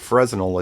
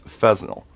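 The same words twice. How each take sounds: First: The word is said with an R sound. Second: The word is said without an R sound. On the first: The speaker calls it wrong. "so it's not Fresnel" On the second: The speaker calls it right. "I was told not to say the R"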